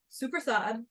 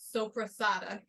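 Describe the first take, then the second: First: It is said clipped, with the final vowel dropped. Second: It is said fully, with the final vowel. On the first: This is how the Italian family says it. "from how his family pronounces it" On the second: This is how the word looks written. "I would have thought that it was called sopressata"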